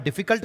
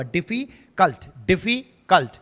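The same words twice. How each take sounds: First: Said in the usual way. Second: difficult broken as डिफी, pause, cult; drawn-out difficult with a gap before cult; split into syllables. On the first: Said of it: "कोई पूरा साथ में थोड़ी बोल देता है". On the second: Shown as a demonstration. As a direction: say difficult slowly in two separate beats. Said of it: "difficult कोई पूरा साथ में थोड़ी बोल देता है".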